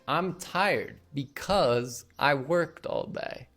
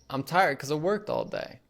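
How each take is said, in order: First: 'Because' is said in full. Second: 'Because' is shortened to 'cuz'. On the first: "instead of saying" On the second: "because gets shortened down to cuz"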